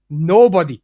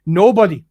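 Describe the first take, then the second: No difference in how they are said.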